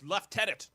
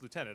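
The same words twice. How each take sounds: First: The word is said the Canadian way. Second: The word is said the American way. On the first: The speaker calls it right. "it's lieutenant. Don't say it like an American" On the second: The speaker calls it wrong. "it's the American um, version"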